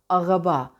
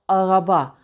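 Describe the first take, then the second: First: The R is made in the throat. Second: The R is made in the throat.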